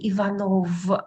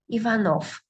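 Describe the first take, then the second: First: The word ends with a voiced v sound. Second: The word ends with a voiceless f sound. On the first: The speaker calls it wrong. "I cannot say Ivanov" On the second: The speaker calls it right. "I pronounce it as dull f"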